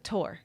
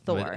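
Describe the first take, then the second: First: The word starts with a hard T sound. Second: The word starts with a soft TH sound. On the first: The speaker calls it wrong. "he said it like it almost like a Tor" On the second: The speaker calls it right. "instead of a Thor"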